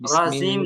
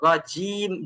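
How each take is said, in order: First: The j sound is soft and loosely formed. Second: The j sound is firm, from mid-tongue. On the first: The speaker calls it wrong. "রাজিম না" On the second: The speaker calls it right. "জিমটাকে জিব্বার মাঝখান থেকে রাজিম।"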